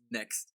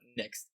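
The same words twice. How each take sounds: First: The word is pronounced with a plain, crisp ending. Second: The word is pronounced a little softer and altered. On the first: The speaker calls it wrong. "Not perfect" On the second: The speaker calls it right. "You gotta you gotta say next a little bit softer"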